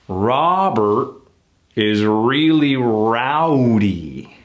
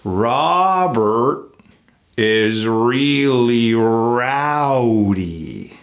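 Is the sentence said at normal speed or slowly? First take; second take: normal; slowly. First: It is said at a normal speed. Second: It is said slowly and carefully.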